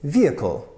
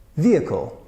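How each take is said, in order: No difference in how they are said.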